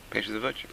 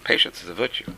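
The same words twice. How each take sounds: First: Much softer repeat of "Patience is a virtue"; soft echo. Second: Said in the usual way. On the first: Shown as a demonstration. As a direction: let "Patience is a virtue" fall away into a quiet echo.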